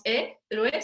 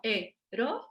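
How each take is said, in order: First: "héroe" in two syllables, É-rue; diptongo incorrecto. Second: "héroe" in three slow syllables, É... ro... e; hiato silabeado. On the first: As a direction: merge the final o and e of "héroe" into a glide. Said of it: "No decimos héroe". ("héroe" con diptongo, É-rue) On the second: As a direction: separate o and e in "héroe" with pauses. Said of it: "No decimos héroe, sino héroe". ("héroe" silabeado, é - ro - e) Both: Shown as a demonstration.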